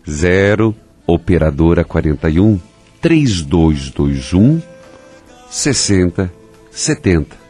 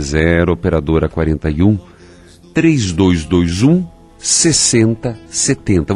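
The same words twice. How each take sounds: First: The number is read slowly and deliberately. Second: The number is read at a normal pace.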